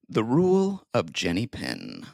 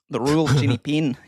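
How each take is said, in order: First: It is said in a plain American accent. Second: It is said in a New Zealand accent.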